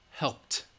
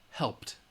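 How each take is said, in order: No difference in how they are said.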